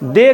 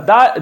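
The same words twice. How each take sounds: First: दे with a long "ay" vowel; wrong "the". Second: द with a short open "uh" vowel, not दे; द ending in "uh" rather than "ay"; correct "the". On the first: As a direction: say दे to rhyme with "day". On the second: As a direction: say द as "duh". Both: Shown as a demonstration. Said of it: "द, दे नहीं, द या दी".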